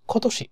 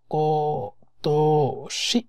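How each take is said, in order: First: কতশি said once fast, breathy and higher; quick whispered repeat. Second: কতশি stretched out syllable by syllable, rising at the end; slow drawn-out reading. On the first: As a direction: then whisper কতশি quickly as a normal word. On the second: Teacher slowly sounding out কতশি for students. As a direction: spell out কতশি very slowly so each sound is heard. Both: Shown as a demonstration. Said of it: "এই তশিটো এটার sound আছে".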